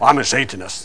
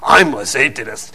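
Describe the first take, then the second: First: It is said in a plain tone. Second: It is said in a menacing, snarling tone.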